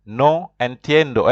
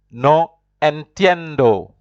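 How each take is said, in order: First: Said in the usual way. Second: Slow, clear "No entiendo" for students to repeat; model Spanish phrase. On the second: Shown as a demonstration. Teacher modelling "No entiendo" for learners to repeat, slow and clear. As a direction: say "No entiendo" slowly, each syllable clear. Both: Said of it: "and you repeat after me".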